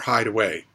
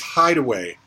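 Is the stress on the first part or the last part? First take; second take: last part; first part. First: The stress falls on the last part, away. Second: The stress falls on the first part, hide. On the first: It tells someone to go and hide. "an instruction" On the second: It names a hiding place. "a noun"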